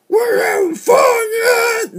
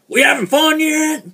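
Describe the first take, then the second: First: It is said in a rough, raspy voice. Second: It is said in a smooth, ordinary voice. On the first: The speaker calls it right. "There we go. Raspy voice" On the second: The speaker calls it wrong. "Hang on"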